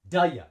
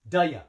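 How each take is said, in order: First: The two words blend into one, one breath. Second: The two words blend into one, one breath.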